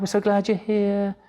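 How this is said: It sounds like gushing, put-on excitement.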